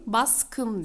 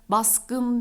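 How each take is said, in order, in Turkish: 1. Ek, sessiz 'k' sesiyle başlıyor. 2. Ek, sesli 'g' sesiyle başlıyor. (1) "baskın diyorum. ... G, K'ye dönüştü" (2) "Baskın demiyorum"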